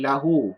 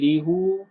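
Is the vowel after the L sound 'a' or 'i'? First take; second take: a; i. First: The first vowel is an 'a' sound. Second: The first vowel is an 'i' sound. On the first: The speaker calls it right. "jadi lahu" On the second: The speaker calls it wrong. "Dia tak panggil lihu"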